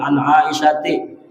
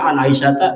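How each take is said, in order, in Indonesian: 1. Nama itu berakhir dengan vokal 'i'. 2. Nama itu berakhir dengan vokal 'a'. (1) "dibaca sidin" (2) "harusnya bacaannya"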